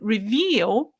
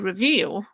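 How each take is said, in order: First: The word is articulated carefully and fully. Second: The word is articulated lazily and slackly. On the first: The speaker calls it right. "instead of saying reveal" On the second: The speaker calls it wrong. "sometimes I get lazy"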